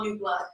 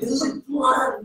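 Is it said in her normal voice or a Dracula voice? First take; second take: normal voice; Dracula voice. First: It is said in her normal voice. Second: It is said in a put-on Dracula voice.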